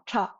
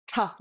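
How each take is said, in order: Both takes have the same delivery.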